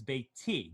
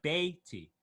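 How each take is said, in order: First: Beiti stressed on the final TI; correct stress. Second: Beiti stressed on the first syllable BEI; misplaced stress. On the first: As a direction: land on the last syllable of beiti. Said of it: "the correct pronunciation". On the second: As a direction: lean on the front of beiti. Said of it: "not beiti". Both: Shown as a demonstration.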